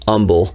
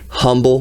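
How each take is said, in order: First: The word begins with no H sound. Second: The word begins with an audible H sound. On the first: This is how locals say the name. The speaker calls it right. "no H, just Humble" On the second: This is how outsiders read the name. The speaker calls it wrong. "spelled humble with an H"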